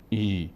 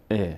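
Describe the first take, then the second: First: ای drawn out as "ee"; wrong long vowel. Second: ا as a short "e"; a brief, clean "e" for ا; correct short kasra. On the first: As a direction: demonstrate the mistaken long "ee" in ای. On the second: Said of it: "و همچنین حرکت کسره". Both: Shown as a demonstration.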